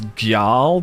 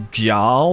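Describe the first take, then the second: First: A G sound is said before the J. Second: A G sound is said before the J.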